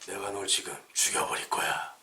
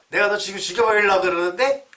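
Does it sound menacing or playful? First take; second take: menacing; playful. First: It sounds menacing, like a thriller. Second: It sounds cute and playful.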